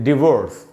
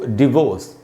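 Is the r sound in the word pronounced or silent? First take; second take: pronounced; silent. First: The r sound is clearly pronounced. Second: The r sound is left silent. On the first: This is the American way of saying it. "तो इसको हम American में पढ़ते हैं डिवोर्स" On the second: This is the British way of saying it. "लेकिन British English में हम पढ़ेंगे इसको डिवोर्स"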